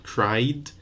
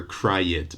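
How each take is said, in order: First: Cried as one syllable, cryd; no vowel added before d in cried; cried ending straight in a voiced d. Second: Cried mispronounced as CRY-id; two syllables in cried, with an added vowel; cried said wrongly as cry-ed; wrong extra vowel. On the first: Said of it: "but cried and studied". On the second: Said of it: "So not studied or, or cried". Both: Shown as a demonstration.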